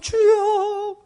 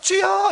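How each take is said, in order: First: It is said in a tearful, mournful tone. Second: It is said in a bright, cheerful tone.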